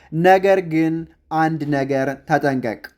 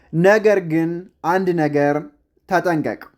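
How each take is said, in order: Both takes have the same delivery.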